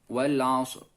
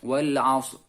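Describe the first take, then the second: First: The final r is only faintly hinted. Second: The final r is only faintly hinted.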